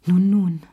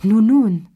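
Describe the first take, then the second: First: Louder, falling nun nun; coaxing. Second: Much louder, higher, falling nun nun; insistent call. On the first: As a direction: coax her to turn round. Cherie coaxes, she ignores him. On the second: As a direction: demand an answer now. Repeated louder after no answer. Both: Acted.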